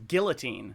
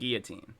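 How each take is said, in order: First: The L sounds in the word are pronounced. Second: The L sounds in the word are silent. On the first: The speaker calls it wrong. "A lot of people pronounce it as guillotine, and that annoys me" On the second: The speaker calls it right. "There are no L's in guillotine"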